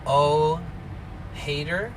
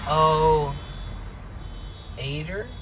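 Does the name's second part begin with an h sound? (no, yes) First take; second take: yes; no. First: The second part starts with an h sound. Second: The second part starts with a vowel sound. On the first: "you could pronounce it however" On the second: "you could pronounce it however"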